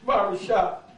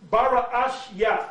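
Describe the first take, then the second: First: The word ends with a 'shah' sound. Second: The word ends with a 'yath' sound. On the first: The speaker calls it wrong. "you do not say the word Barashah" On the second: The speaker calls it right. "the word there for Genesis um, is uh, uh, Bara'ash Yath"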